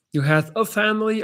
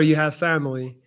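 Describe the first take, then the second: First: "a" stressed before "family". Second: Said in the usual way. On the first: Shown as a demonstration. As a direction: lean on the word "a" in "a family". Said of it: "or you have family". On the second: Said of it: "You have a family or".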